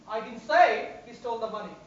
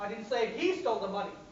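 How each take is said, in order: First: The word say is stressed. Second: The word he is stressed. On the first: It was expressed some other way, such as in writing. "Maybe I've written about it" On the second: Someone else stole the money. "Somebody else stole the money"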